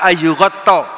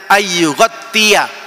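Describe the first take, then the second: First: The word ends in a short -tta sound. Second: The word ends in -ttiya, one syllable longer. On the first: The speaker calls it wrong. "Dia baca ayyughatta" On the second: The speaker calls it right. "padahal yang benar cara bacanya ayyughattiya"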